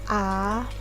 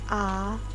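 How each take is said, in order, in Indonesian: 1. Nadanya naik dari rendah ke tengah. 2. Nadanya naik dari rendah ke tengah.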